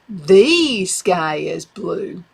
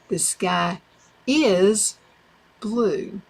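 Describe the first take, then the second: First: The stress is on "the". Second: The stress is on "is".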